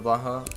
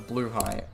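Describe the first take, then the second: First: It sounds like 'blah-hah', with two short syllables. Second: It sounds like 'blue high', with two long syllables. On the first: This is the familiar, unofficial way of saying it. "I'm gonna continue saying Blaha" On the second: This is the official way of saying it. "That's the official way to say it"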